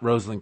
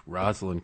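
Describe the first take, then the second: First: "Rosalind" said with a long O, like "rose"; ROSE-alynn pronunciation. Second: "Rosalind" said with a short vowel, like "Roz"; ROZ-alynn pronunciation. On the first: Guest objecting to the newer form, "Rosalind" starting ROSE. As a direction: open "Rosalind" with ROHZ. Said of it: "It's not Rosalind Carter". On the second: Guest giving his lifelong form, "Rosalind" starting ROZ. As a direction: open "Rosalind" with RAHZ, lower and softer. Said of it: "it's Rosalind Carter". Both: Shown as a demonstration.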